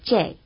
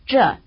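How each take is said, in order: First: The word has the Peking regional pronunciation. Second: The word has the non-Peking regional pronunciation. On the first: "instead of" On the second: "the word for this is given with its non-Peking pronunciation"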